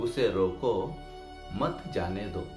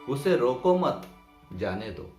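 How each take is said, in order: First: There is a pause after roko. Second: There is a pause after mat. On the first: "रोको के बाद अगर हमने अल्पविराम दे दिया" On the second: "इस अल्पविराम को मत के बाद लगा देते हैं"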